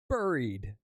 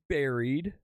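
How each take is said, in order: First: The first vowel sounds like the vowel in 'burrow'. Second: The first vowel sounds like the vowel in 'berry'. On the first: The speaker calls it right. "Like a burrow" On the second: The speaker calls it wrong. "Not buried"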